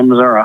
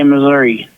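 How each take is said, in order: First: It is said the rest-of-state way. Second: It is said the Kansas City/Saint Louis way.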